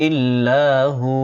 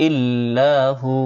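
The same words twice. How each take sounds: Both takes have the same delivery.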